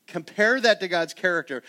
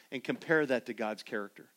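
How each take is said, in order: First: "Compare that to God's character" louder and higher; emphatic repeat. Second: Said in the usual way. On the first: Shown as a demonstration. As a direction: drive the line home the second time. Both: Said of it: "Take a moment".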